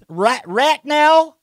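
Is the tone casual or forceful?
casual. It is said in a casual, unforceful tone. The demand is not meant seriously. The speaker calls it wrong. "not right now"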